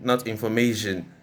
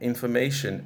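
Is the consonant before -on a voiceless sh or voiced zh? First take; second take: voiced zh; voiceless sh. First: The ending has a voiced zh sound. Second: The ending has a voiceless sh sound. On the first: The speaker calls it wrong. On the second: The speaker calls it right. "it comes as information"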